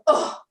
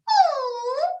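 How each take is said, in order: First: A low grunt from the tummy, like a teenager. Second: A higher sound like a little kid.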